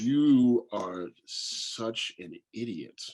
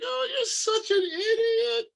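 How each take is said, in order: First: It sounds harsh and mean. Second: It sounds playful and teasing.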